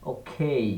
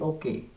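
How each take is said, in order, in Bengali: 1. K aspirated, বাতাসের ফুঁ সহ। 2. K আনঅ্যাসপিরেটেড, বাতাসের ফুঁ ছাড়া। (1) "খ দিয়ে হয়েছে" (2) "যেমন আমরা বলি ওকে, ক দিয়ে"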